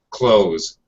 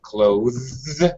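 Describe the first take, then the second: First: It ends with a plain z sound only. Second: A th sound comes before the final z. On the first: "Just a simple Z sound at the end" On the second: "with the T H sound and the Z sound at the end"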